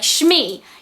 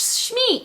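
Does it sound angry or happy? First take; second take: angry; happy. First: It sounds angry and annoyed. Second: It sounds happy and excited.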